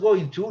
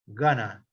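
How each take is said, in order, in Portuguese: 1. É dito como duas palavras completas. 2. É dito como uma palavra reduzida. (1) "Esse going to" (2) "ele pode ser chamado também de gonna, gonna. Isso é na hora de pronunciar"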